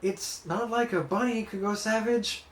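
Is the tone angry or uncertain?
uncertain. The line is said in an uncertain tone. "nor is it uncertain"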